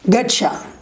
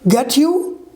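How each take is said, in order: First: "You" blends with the t into "cha". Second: "You" is said in full, unlinked. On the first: "These are the reduction form"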